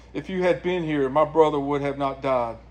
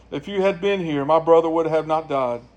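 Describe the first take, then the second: Both takes have the same delivery.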